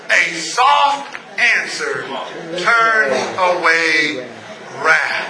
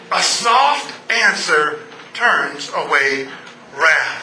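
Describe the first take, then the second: First: Low, very slow reading; slow, low, soft recitation; soft scripture quote. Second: Drawn-out, lower restatement; slow gentle repeat. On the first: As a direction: let the verse land gently. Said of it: "The Bible says". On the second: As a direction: savour each word. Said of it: "repeats the verse". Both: Acted.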